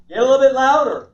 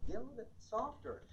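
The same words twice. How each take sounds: First: Raised, loud voice; louder. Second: Hushed, very soft voice; softer. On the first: Trainer showing vocal range, getting loud. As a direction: project it out louder. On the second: Trainer showing vocal range, going very soft. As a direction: drop it right down to very quiet. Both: Shown as a demonstration.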